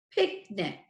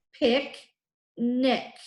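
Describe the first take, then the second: First: Said in the usual way. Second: "Picnic" split as pic, pause, nic; syllable by syllable. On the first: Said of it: "it's a multisyllabic word". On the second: Shown as a demonstration. Teacher shows first graders both ick endings, syllable by syllable. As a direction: say "Picnic" in two slow, separated syllables. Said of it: "at the end of the first syllable".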